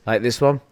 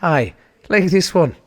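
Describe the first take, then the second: First: Said in the usual way. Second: Put-on loud, slow Irish accent. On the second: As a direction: answer in a broad Irish accent. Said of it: "Amazon's Irish for some fucking reason".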